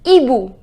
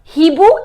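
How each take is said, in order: First: The word begins directly with a vowel sound. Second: The word begins with an audible h sound. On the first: The speaker calls it right. "we write H but we do not pronounce it" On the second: The speaker calls it wrong. "So it is not Hibu"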